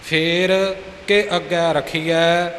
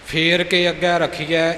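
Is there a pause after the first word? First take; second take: yes; no. First: A short pause follows the first word. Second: The words run together without a pause. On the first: The speaker calls it right. "ਫੇਰ 'ਤੇ ਥੋੜ੍ਹਾ ਜਿਹਾ ਰੁਕ ਕੇ" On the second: The speaker calls it wrong. "ਇਕੱਠਾ ਨਹੀਂ ਹੈ"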